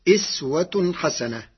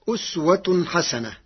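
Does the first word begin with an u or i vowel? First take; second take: i; u. First: The first word begins with an i vowel. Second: The first word begins with an u vowel.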